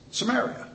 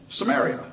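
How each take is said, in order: First: Samaria lifted high with a rising tune; emphatic Samaria. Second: Said in the usual way. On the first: Shown as a demonstration. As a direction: repeat Samaria higher, stressing it.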